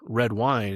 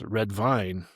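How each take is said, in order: First: The word begins with a W sound. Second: The word begins with a V sound. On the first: "if they're trying to say wine" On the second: "So it turns into a, into a, a V"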